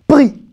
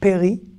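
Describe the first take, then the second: First: The first two consonants come together directly. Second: A vowel separates the first two consonants. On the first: The speaker calls it right. "ce mot se prononce pri" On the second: The speaker calls it wrong. "certains vont dire. Péri"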